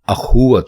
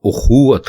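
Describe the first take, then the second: First: The word begins with an 'a' vowel. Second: The word begins with a 'u' vowel. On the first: The speaker calls it wrong. "अखुवत नहीं" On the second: The speaker calls it right. "दुरुस्त लफ्ज़ उखुवत है"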